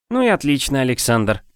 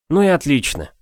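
First: Blissfully smiling. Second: Relieved. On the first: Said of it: "блаженно улыбаясь". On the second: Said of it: "с облегчением вздохнул я". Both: Acted.

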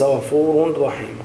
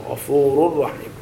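First: غفور رحيم with audible n, "ghafuurun rahiim"; unmerged tanween. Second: غفور رحيم run together on a doubled r; correct merging. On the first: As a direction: imitate the error, n before رحيم. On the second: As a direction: drop the n, "ghafuurur-rahiim". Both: Shown as a demonstration. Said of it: "وليس".

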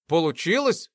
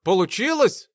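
First: Mildly anxious rising question; worried. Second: High, eager question; impatiently curious. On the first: Test subject unsure of the result, mildly worried. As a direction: ask with a touch of worry. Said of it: "забеспокоился Артур". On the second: Sasha jumping up to see the result, eager. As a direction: ask unable to bear the suspense. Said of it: "вскочил Саша, не вытерпев интриги". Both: A narrator's reading.

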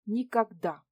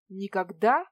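First: Said in the usual way. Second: Loud, rising astonished echo. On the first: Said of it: "спокойно и уверенно". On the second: Acted. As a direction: echo her word in disbelief. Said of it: "поразился я".

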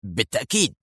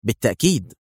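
First: Softer, prompt confirmation; quick reply. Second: Short, firm confirmation; decisive. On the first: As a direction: answer at once, voice kept down. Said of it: "ولكنه أجاب في سرعة". (مجيبًا في سرعة) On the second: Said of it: "قالت في حسم". (بحسم) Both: A narrator's reading.

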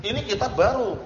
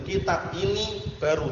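First: Raised-pitch mistaken translation; counterexample, voice lifted; wrong example. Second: Said in the usual way. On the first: Shown as a demonstration. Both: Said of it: "Jangan gitu, itu keliru".

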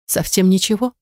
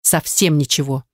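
First: Rising question on «ничего»; «Совсем ничего?» asked up, doubting; checking if he means it; doubtful question. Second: Lower, falling on «совсем»; «Совсем ничего» settled with a firm fall; promising with calm certainty; firm answer. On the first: Dana asks for reassurance. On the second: Nazar confirms firmly. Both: A narrator's reading.

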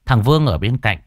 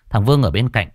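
Both takes have the same delivery.

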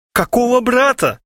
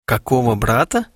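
First: High, loud panicked shout; frightened cry, much higher and louder. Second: Said in the usual way. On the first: A narrator's reading. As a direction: yell it at him in alarm. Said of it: "закричал Харченко".

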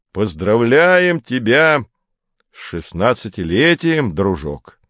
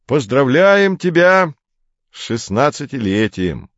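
First: Медленно, нарочито ласково, ещё слаще; растягивай, как приторную любезность; ещё ласковее. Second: Ласково. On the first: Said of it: "повторил Поль ещё ласковее". (ещё ласковее, медленно и слащаво) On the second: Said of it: "ласково сказал он". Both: A narrator's reading.

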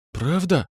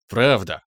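First: Высокий робкий вопрос «Правда?»; переспросить тонко и с надеждой; недоверчивый лепет. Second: Низкое уверенное «Правда» с усмешкой; подтвердить с ухмылкой, чуть ниже. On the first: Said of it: "пролепетала близняшка". (лёгкий высокий лепет) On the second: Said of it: "ухмыльнулся я". (довольная ухмылка) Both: A narrator's reading.

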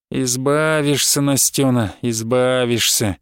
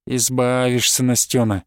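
First: Slow, low, falsely soothing; mock consoling. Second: Lower, falsely soothing; mock consoling. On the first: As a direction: drag it out like cruel comfort. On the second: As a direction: sneer it as comfort. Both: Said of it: "выворачивая голос до утешения".

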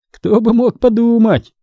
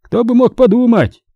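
First: Ironic. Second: Much higher, teasing parody of the son's irony; father teasingly mimicking his son; mocking imitation. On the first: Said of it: "с иронией заметил Терри". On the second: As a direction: mimic the boy to tease him. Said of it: "передразнил он Терри". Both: A narrator's reading.

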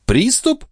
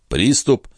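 First: Very high, outraged question; very high rising "Приступ"; indignant echo. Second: Said in the usual way. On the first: Acted. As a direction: throw the word "Приступ" back incredulously.

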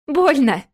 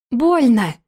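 First: A mock squeal of Больно, higher and louder. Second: Serious and even. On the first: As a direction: squeal Больно like a child in pain. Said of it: "завизжала она". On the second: Acted. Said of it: "серьёзно и ровно подтвердила она".

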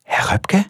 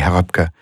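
First: Breathy unvoiced whisper, much higher. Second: Said in the usual way. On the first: A narrator's reading. A voice behind him whispering his name. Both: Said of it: "flüstert eine Stimme".

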